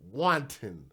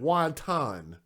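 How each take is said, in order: First: It sounds like the start of 'wanting'. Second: It sounds like the Chinese dumpling 'wonton'. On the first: The speaker calls it right. "Like I'm wanting to do" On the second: The speaker calls it wrong. "I call it wonton. I know what wonton is"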